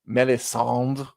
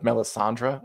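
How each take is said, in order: First: The name ends without the final 're' sound. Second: The name ends with the final 're' sound. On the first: This is the audiobook narrator's French-style version. "Roy Dotrice pronounces her name Melisandre" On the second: This is the usual version. "instead of Melisandre"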